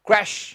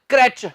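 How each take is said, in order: First: The word ends with an 'sh' sound. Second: The word ends with a 'ch' sound. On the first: The speaker calls it right. "ਸਹੀ ਉਚਾਰਨ ਹੈ" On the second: The speaker calls it wrong. "ਕਰੈਚ ਗਲਤ ਹੈ।"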